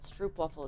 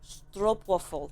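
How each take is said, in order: First: It is said with an American pronunciation. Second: It is said with a Dutch pronunciation. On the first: The speaker calls it wrong. "it's not stroopwafel" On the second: The speaker calls it right. "it's stroopwafel"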